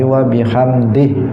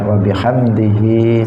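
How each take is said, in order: First: The final 'hi' is cut short. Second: The final 'hi' is drawn out long. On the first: The reciter stops at this point. "kalau waqaf itu dipendekkan" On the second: The phrase continues without stopping. "Hi-nya itu boleh dibaca panjang"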